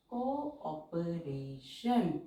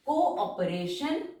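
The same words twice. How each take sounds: First: cooperation drawn out with को and ऑ clearly apart; very slow, vowels split apart. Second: Said in the usual way. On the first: Shown as a demonstration. Teacher splitting the two vowels for students, very slow. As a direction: say cooperation slowly, syllable by syllable. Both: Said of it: "दोनों को हम अलग-अलग pronounce कर रहे".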